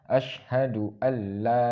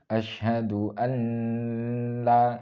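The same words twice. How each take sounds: First: The n sound is merged into the l. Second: The n sound is kept before the l. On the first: The speaker calls it right. "Yang seharusnya" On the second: The speaker calls it wrong. "itu nggak boleh"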